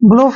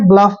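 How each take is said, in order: First: The vowel is a long 'oo' sound. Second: The vowel is a short 'uh' sound. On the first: The speaker calls it wrong. "ऐसे ब्लूफ नहीं पढ़ना है" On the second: The speaker calls it right. "ब्लफ पढ़ना है"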